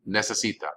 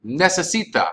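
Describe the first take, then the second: First: Necesita said again, softer and falling; necesita repeated. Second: Necesita with the stress on si and crisp Spanish vowels. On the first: Teacher repeating Necesita for students to copy. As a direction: echo Necesita quietly. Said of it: "teacher repeats verb form". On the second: Teacher modelling Necesita for students to repeat. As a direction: model Necesita clearly and a bit higher. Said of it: "teacher models verb form". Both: Shown as a demonstration.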